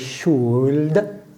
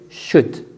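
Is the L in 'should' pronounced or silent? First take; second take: pronounced; silent. First: The L sound is pronounced in the word. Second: The L sound is silent in the word. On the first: The speaker calls it wrong. "We don't say" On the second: The speaker calls it right. "but we say should. This is a silent L"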